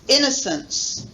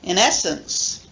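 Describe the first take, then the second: First: The main stress is on the first syllable. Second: The main stress is on the second syllable. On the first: "main stress on the first one" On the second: "the main stress following, falling on the second syllable"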